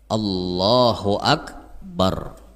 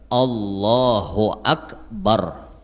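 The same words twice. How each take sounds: Both takes have the same delivery.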